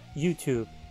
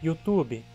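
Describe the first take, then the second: First: It is said with English sounds and rhythm. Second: It is said with Portuguese sounds and rhythm. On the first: This keeps the pronunciation of the original language. The speaker calls it wrong. "e não YouTube" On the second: This is the usual adapted form in Portuguese speech. The speaker calls it right. "YouTube, e não YouTube"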